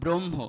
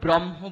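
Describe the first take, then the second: First: The syllables are said ending in an o sound. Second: The syllables are said without a final o sound. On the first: The speaker calls it right. "কিন্তু ব্রহ্ম" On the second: The speaker calls it wrong. "আমরা কিন্তু ওটাকে বলি না ব্রহ্ম বলি না"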